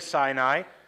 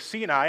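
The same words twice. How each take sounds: First: It uses the usual English pronunciation. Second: It uses the Hebrew pronunciation. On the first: "It's okay to say Sinai" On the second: "in Hebrew it would be Sinai"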